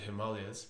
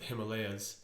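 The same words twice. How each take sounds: First: The word is given its Eastern pronunciation. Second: The word is given its Western pronunciation. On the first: "In the East, they pronounce it ... So I like that pronunciation" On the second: "In the West, we would pronounce it"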